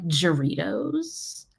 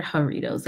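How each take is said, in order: First: Doritos said with an English J, like "juh-REE-dohz"; partner's mispronunciation. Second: Jarritos with the J as an H, "ha-REE-tohs"; corrected pronunciation. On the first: Retold or imitated. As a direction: slowly sound out Doritos with a hard J at the front. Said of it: "he'll call it, like". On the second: Shown as a demonstration. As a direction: offer Jarritos the Spanish way, H sound first. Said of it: "I think they're Jarritos".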